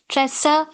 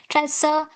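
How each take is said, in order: The two takes are said the same way.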